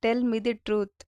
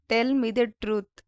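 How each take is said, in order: First: Said in the usual way. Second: "Tell me the truth" said slowly, each word clear; slow it down for learners; slow, careful repeat. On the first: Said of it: "teacher repeats the phrase". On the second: Shown as a demonstration. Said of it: "teacher repeats the phrase slower". (నెమ్మదిగా, స్పష్టంగా)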